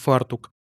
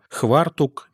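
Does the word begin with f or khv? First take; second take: f; khv. First: The word begins with an f sound. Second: The word begins with a khv sound. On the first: This is the standard form. "вместо ... «фартук»" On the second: This is the local dialect form. "будут произносить слова типа «хвартук»"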